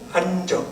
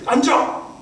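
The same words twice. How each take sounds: First: It is said softly with mild intonation. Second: It is said sharply with strong intonation.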